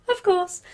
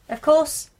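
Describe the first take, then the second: First: "Of course" said through a light laugh, higher. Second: Said in the usual way. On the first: Real, not acted. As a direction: laugh as you repeat "Of course".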